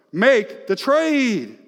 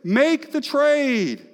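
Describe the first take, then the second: First: Higher, louder, slow and drawn out; slow ringing pulpit command; preached command. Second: Much higher, louder, slow, punched "Make"; preached command climbing. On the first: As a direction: land "Make the trade" like a preacher's call. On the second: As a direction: hit "Make" hard and drag "the trade". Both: Acted. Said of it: "preach that back to me".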